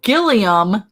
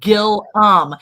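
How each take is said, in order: First: The name has three syllables, Gil-lee-um. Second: The name has two syllables, Gil-lum. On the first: The speaker calls it wrong. "Gilliam isn't the way you say it" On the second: The speaker calls it right. "It's Gillum"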